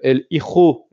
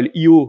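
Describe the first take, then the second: First: The J is said with a Spanish throat sound. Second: The J is said the American way. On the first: The speaker calls it right. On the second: The speaker calls it wrong.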